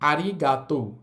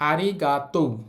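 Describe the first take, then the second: The two takes are said the same way.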